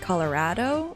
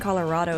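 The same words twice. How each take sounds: First: It is said with a Colorado local accent. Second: It is said in a general American accent. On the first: "it's like Colorado or something" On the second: "instead of saying Colorado"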